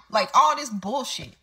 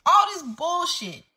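First: Said in the usual way. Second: Higher, slow exasperated scoff. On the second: Real, not acted. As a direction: throw it off higher in disbelief. Repeats phrase, raised pitch.

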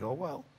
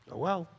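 First: Soft, dismissive oh well; imitating a careless shrug; mock shrug. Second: Said in the usual way. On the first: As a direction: brush it off under the breath. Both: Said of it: "I was like".

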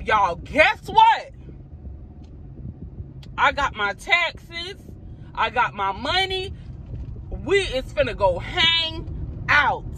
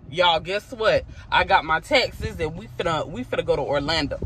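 First: High, slow, drawn-out happy news; sugary teasing announcement, stretched out; sweet fake surprise. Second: Said in the usual way. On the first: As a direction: dangle the treat sweetly to the kids. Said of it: "I'm finna tell them". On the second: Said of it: "I'm gonna tell them".

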